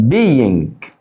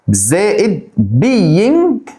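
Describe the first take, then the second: First: Said in the usual way. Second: Being stretched long and pitched high; drawn-out being. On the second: Shown as a demonstration. Teacher drawing out being for students, stretched slowly. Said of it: "is و are و am".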